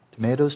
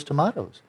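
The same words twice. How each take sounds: First: Tomatoes said as tom-AY-doze, with the long A; American tomayto. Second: Tomatoes said as tom-AH-toes, with the broad A; British tomahto. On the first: Teacher quoting the idiom to students, tomatoes said tom-AY-toes. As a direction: tomatoes with an AY vowel, the first half of the old idiom. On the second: Teacher finishing the idiom for students, tomatoes said tom-AH-toes. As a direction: tomatoes with an AH vowel, closing the idiom. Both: Shown as a demonstration. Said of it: "you know, tomatoes, tomatoes".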